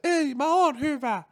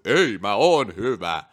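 First: It is said in an exaggerated, odd tone. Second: It is said in a normal tone. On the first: The speaker calls it wrong. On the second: The speaker calls it right.

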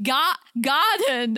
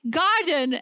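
First: It is said in a put-on British accent. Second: It is said in the speaker's usual accent.

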